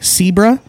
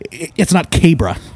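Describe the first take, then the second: First: The name begins with an S sound. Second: The name begins with a K sound. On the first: The speaker calls it right. "so that means it's pronounced like an S" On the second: The speaker calls it wrong. "It's not Cabra"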